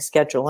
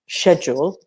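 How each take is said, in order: First: It is said with an American pronunciation. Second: It is said with a British pronunciation. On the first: "you said it the American way" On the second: "and not schedule"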